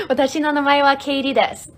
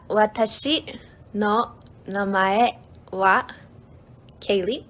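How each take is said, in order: First: "Watashi no namae wa Kaylee desu" loud, fast and in one go; fluent, quick. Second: "Watashi no namae wa Kaylee" slowly, pausing between words. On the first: Streamer modelling the full introduction, quick and fluent. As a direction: run the whole sentence together briskly, louder and higher. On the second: Streamer teaching a self-introduction, word by word. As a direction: lay out each word separately for learners. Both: Shown as a demonstration.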